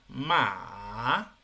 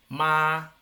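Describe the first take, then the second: First: The pitch dips low and then rises. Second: The pitch stays high and level. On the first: "en este caso el tercero" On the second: "El primero. / muy bien"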